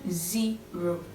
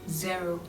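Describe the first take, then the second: First: The first vowel sounds like 'ee'. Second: The first vowel does not sound like 'ee'. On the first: "le E, en fait, se prononce comme un I" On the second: "il y a des gens qui disent zero"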